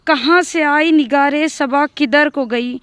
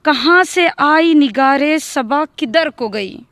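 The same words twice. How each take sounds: The two takes are said the same way.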